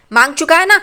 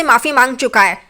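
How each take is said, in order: First: मांग चुका है ना pushed louder and higher, rising on ना; insistent repeat. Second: Said in the usual way. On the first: A narrator's reading. Saili challenges her aunt that the family did apologise, rising insistently on ना. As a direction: hammer the point home as a challenge.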